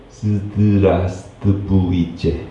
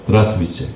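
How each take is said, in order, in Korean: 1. 단어의 모든 음절이 또렷하게 발음돼요. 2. 단어가 이어져 붙고 일부 음절이 빠져요. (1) "이렇게 얘기를 해야 돼요" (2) "한 번에 드라스비체 이렇게 얘기를 하는데"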